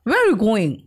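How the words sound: British accent, with the middle word swallowed. "ये होते हैं ब्रिटिश वो क्या करते हैं ना बीच के शब्दों को खा जाते हैं"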